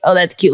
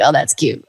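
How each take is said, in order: First: Dismissive. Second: Lower, softer patronizing coo; condescending. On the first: People brushing off home studio work, dismissive. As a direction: repeat the brush-off, back to normal level. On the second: People belittling her home studio work, patronizing. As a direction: pat them on the head with it. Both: Retold or imitated. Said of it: "people would be like".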